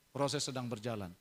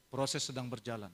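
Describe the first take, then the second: No difference in how they are said.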